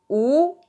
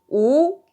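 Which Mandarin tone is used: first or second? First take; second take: second; second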